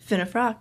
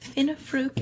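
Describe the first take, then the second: First: The name is said as Finnefrock. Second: The name is said as Finnefruke. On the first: The speaker calls it right. "that's my last name" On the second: The speaker calls it wrong. "someone tried to pronounce my last name"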